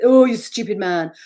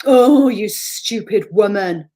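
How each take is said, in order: First: Loud sneering inner voice; nasty inner critic. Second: Slow, loud, sneering inner voice; nasty inner critic. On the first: The inner critic sneering at James, loud and scornful. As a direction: spit it out with contempt. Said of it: "and not you, James". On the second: The inner critic sneering at herself, slow and loud. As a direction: drag it out with contempt. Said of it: "It probably says". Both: Retold or imitated.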